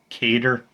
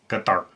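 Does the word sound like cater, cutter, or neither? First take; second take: cater; neither. First: The word sounds like cater. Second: The word sounds like neither cutter nor cater. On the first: The speaker calls it wrong. "it's not Cater" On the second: The speaker calls it right. "it's Qatar"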